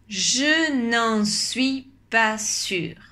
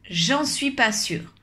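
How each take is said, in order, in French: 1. Le son 'ne' est conservé en entier. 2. Le son 'ne' est complètement supprimé.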